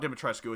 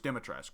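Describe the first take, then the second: First: The name ends with a final oo vowel. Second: The name ends on a consonant sound. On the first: "so it's not Dimitrescu" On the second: "none of them actually pronounce the "oo" at the end"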